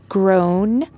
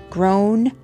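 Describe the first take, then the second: Both takes have the same delivery.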